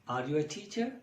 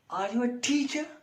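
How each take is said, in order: First: It is asked as a plain, neutral question. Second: It is said with a doubtful, sarcastic tune. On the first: The speaker simply wants to know the answer. "it may be a question" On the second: The speaker doubts the listener's competence as a teacher. "Now intonation is changed in the same sentence. It is some sarcastic statement"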